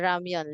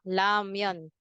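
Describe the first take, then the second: First: The word begins with an R sound. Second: The word begins with an L sound. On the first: "Instead na ramyon" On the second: "Koreans tend to say it la"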